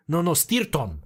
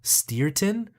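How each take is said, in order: First: Correcting with 'Stirton', trilled R, falling; parents' rolled R. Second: 'Stirton' as steer-tin, English R, rising; puzzled repeat. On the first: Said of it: "how to not roll their R's". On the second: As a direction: query 'Stirton' with an unrolled R. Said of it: "And they'd be like". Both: Retold or imitated.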